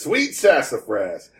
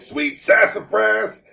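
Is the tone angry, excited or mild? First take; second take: excited; angry. First: It is said in an excited tone. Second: It is said in a clearly angry tone.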